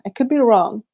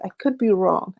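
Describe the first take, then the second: First: A touch of a dim, dopey voice, slightly higher and louder; mock slow-witted human. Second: Said in the usual way. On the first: Vlogger mimics how aliens hear humans, mock dim voice. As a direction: play the slow human aliens imagine, lightly. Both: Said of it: "This is how I think they see us".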